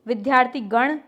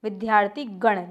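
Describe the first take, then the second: First: "विद्यार्थी गण" read with a rising, questioning tune. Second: "विद्यार्थी गण" with a falling, final tune; settled confirmation. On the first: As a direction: present "विद्यार्थी गण" as a term still to check, tune up. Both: Shown as a demonstration. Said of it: "देख लीजिए कैसे लिखा हुआ है ये".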